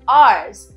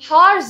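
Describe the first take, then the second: First: The word starts with a vowel, no h. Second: The word starts with an h sound. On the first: The speaker calls it right. "हम एच को silent रखते हैं" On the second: The speaker calls it wrong. "हार्स नहीं"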